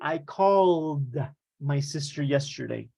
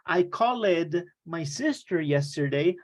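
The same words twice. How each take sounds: First: The ending of 'called' is just a d sound. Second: The ending of 'called' is an extra syllable. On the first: The speaker calls it right. "You would say" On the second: The speaker calls it wrong. "you would not say"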